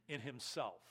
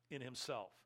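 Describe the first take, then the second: No difference in how they are said.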